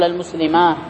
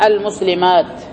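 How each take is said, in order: First: المسلمة said as al-muslimaah, no t; pause on ha. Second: Slow المسلمات ending on a sounded t; long aa, then t at the end of المسلمات; pause on ta. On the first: Teacher showing how some Arabs pause, with ha. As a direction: end المسلمة on a long aa and h. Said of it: "بعضهم يقف بالهاء فيقول". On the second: Teacher giving the most eloquent form, pausing on ta. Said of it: "فالأفصح الوقف بالتاء". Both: Shown as a demonstration.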